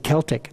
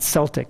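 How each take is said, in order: First: The word is said the Nova Scotia way. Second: The word is said the West Coast way. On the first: The speaker calls it right. "If you're from Nova Scotia, you know how to pronounce that" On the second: The speaker calls it wrong. "like some people pronounce it on the West Coast"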